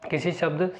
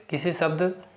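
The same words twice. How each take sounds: First: शब्द said as "shabd" with a clear sh sound; corrected शब्द. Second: शब्द said as "sabd" with a plain s; slip on शब्द. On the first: Teacher restarts the definition, fixing शब्द. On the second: Teacher reading the definition, slips on शब्द. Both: Real, not acted.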